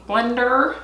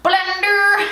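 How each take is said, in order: First: Said in the usual way. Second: BLENDER sung out high and drawn out; playful exclamation. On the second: Real, not acted. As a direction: call out "blender" in a high, silly voice. Playful repeat of the word.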